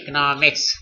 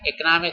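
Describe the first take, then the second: First: The word ends with a final s sound. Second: The word ends without a final s sound. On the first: The speaker calls it right. "सही तलफ़ुज़ है इकोनॉमिक्स" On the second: The speaker calls it wrong. "इकोनॉमिक गलत है"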